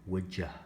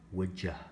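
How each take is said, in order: First: The word you is reduced to a quick ya. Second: The word you is reduced to a quick ya.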